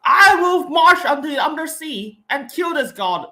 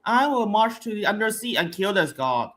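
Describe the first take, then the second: First: Loud, high, slow heroic declaration; dramatic delivery. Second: Mocking a weak line reading; bad acting. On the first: Shown as a demonstration. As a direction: proclaim it like an epic hero. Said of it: "it's supposed to be like". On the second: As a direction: read it like a bored actress. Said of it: "she just delivered it like".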